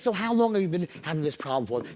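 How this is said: It is asked warmly, with empathy.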